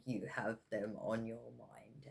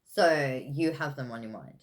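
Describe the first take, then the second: First: Soft breathy whisper. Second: Said in the usual way. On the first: Real, not acted. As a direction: whisper it like a secret. Repeated in a whisper.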